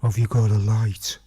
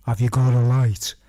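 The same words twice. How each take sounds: First: Low, louder, menacing stranger in the dark; a hint of a creepy stranger asking for a light. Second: Loud whisper right behind the head; creepy loud whisper from the dark. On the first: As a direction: voice a looming stranger behind you. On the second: Retold or imitated. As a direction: breathe it down his neck. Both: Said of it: "I hear this voice go".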